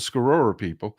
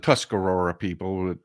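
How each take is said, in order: First: The name begins with a clipped 'sk' sound. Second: The name begins with a full 'tus' syllable. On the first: This is the people's own actual pronunciation. "it's pronounced the Scarora people" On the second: This is the anglicized form of the name. "we call it the Tuscarora people"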